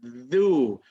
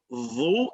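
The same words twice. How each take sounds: First: Dhu with the tongue tip between the teeth; correct dhu. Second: Dhu with the tongue pushed out too far; wrong dhu. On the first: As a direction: dhu said right. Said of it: "it's dhu". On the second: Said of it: "It's not dhu". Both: Shown as a demonstration.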